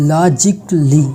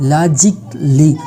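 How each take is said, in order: Both takes have the same delivery.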